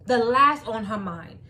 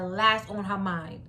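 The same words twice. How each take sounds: First: "last" hit harder and louder; stress on last. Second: Said in the usual way. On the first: Shown as a demonstration. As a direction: repeat it, punching "last".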